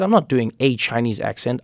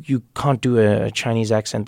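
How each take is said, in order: First: "a" said as a full, stressed "ay". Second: Said in the usual way. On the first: Retold or imitated. Comedian retelling his retort to coworkers, "a" stressed as "ay". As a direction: lean on the article "a", pronounced "ay", to correct them. Retold retort contrasting with friend's accent.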